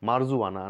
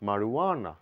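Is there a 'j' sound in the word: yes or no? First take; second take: yes; no. First: The word contains a 'j' sound. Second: The word contains no 'j' sound. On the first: The speaker calls it wrong. "মারজুয়ানা না বলে" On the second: The speaker calls it right. "বলবো মারুয়ানা"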